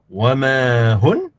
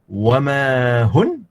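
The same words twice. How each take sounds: Both takes have the same delivery.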